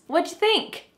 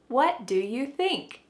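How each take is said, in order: First: The words run together quickly and reduced. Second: Every word is said slowly and fully.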